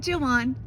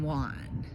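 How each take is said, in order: First: The name begins with an English J sound. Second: The name begins with an H-like sound. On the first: The speaker calls it wrong. "I'm calling you Joan from now on" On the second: The speaker calls it right. "You don't pronounce the J. It's San Juan"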